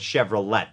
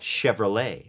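First: The final t sound is pronounced. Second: The final t sound is silent. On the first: Some native speakers say it this way. "น่าจะมีฝรั่งบางคนที่ออกเสียง" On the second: This is the standard way to say it. "ถ้าจะถูกต้องอะก็"

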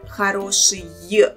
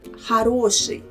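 First: The final sound is pronounced with full force. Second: The final sound is pronounced weakly and lightly. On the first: The speaker calls it wrong. "it sounds not like хороший" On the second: The speaker calls it right. "the sound Y is pronounced in the end of this word with less power"

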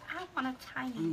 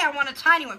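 First: It is said in a tiny, meek voice. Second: It is said in a normal, casual voice. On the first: The speaker imagines how the words felt when read. "I picture that in the smallest little voice" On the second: This is how the writer probably really said it. "She probably said, hey"

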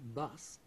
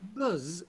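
First: The word ends with a hissing s sound. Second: The word ends with a buzzing z sound. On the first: The speaker calls it right. "the correct pronunciation, Rob, which is, of course, bus" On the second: The speaker calls it wrong. "it's the S that's different from the correct pronunciation"

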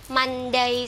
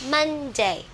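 First: The stress falls on the second syllable. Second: The stress falls on the first syllable. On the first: The speaker calls it wrong. "Các bạn không đọc là Monday" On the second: The speaker calls it right. "Các bạn sẽ đi lên này"

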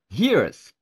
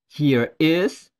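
First: The words are contracted into one word. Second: The words are said in full as two words.

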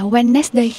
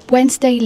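First: Every letter is sounded, three syllables. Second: The middle d is silent, two syllables. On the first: The speaker calls it wrong. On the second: The speaker calls it right.

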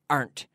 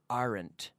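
First: The word is said as one syllable. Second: The word is said as two syllables. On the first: The speaker calls it right. "Natives always pronounce this as one syllable" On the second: The speaker calls it wrong. "many of my students say aren't"

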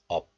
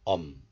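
First: The syllable ends with a p sound. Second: The syllable ends with an m sound. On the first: The syllable stands alone. "This letter is pronounced as up in isolation" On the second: A nasal consonant follows the syllable. "So this up becomes um"

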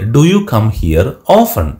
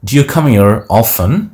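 First: 'Do you' is said as two separate syllables. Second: 'Do you' is merged into one syllable, 'dew'.

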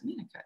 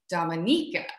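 First: The stress is on the second syllable. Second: The stress is on the third syllable. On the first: The speaker calls it wrong. "where in your mind, you've always been thinking Dominica" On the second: The speaker calls it right. "So everyone say it with me now"

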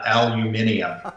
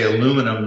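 First: It is said the non-American way. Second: It is said the American way. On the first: The speaker calls it wrong. "not aluminium" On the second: The speaker calls it right. "we also say aluminum"

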